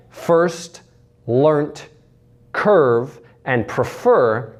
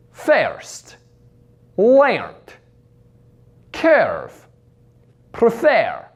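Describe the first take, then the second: First: Said in the usual way. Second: First, learnt, curve, prefer with "air" for "er"; Russian "er" to "air". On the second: Shown as a demonstration. Coach demonstrates Russian vowel change, "air" in first, learnt, curve, prefer. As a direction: say "fairst, lairnt, cairve, prefair". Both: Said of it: "changes the sound er to air".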